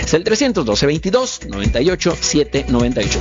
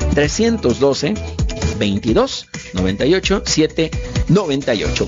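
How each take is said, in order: First: The number is said at normal, quicker speed. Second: The number is said more slowly.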